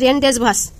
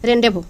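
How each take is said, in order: First: The z and final s are sounded. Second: The z and final s are silent. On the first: The speaker calls it wrong. "এটা মনে হচ্ছে রেনডেজভাস, কিন্তু আসলে এটা না" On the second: The speaker calls it right. "এর সঠিক উচ্চারণ হবে রেনডেভো"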